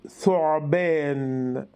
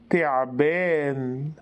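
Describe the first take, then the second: First: The word begins with a 'th' sound. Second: The word begins with a 't' sound.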